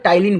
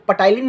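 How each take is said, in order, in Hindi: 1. इस शब्द की शुरुआत t की आवाज़ से होती है, p साइलेंट है। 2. इस शब्द की शुरुआत में p की आवाज़ बोली जाती है। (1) "टाइलिन बोलिएगा, पी साइलेंट होता है" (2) "अब इसको पटाइलिन मत बोलिएगा"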